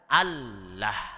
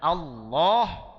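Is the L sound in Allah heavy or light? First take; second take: light; heavy. First: The L is pronounced thin and light. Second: The L is pronounced thick and heavy. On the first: This is the letter's original reading. "tapi aslinya dibaca Allah" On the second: This is not the letter's original reading. "Aslinya bukan dibaca Allah"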